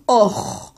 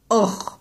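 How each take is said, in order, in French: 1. La syllabe est dite emphatique, avec une voyelle sombre. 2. La syllabe est dite emphatique, avec une voyelle sombre.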